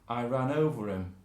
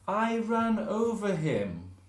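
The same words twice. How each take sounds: First: The h in him is dropped. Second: The h in him is clearly pronounced. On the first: The speaker sounds less posh. "if we're not so posh, we'll say" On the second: The speaker sounds very posh. "if we're very posh, we say"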